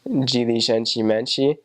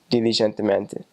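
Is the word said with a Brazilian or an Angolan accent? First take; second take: Brazilian; Angolan. First: The d and t sound like j and ch. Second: The d and t stay plain, without ch sounds. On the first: "In Portuguese from Brazil, it's" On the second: "whereas in Angola, it's just"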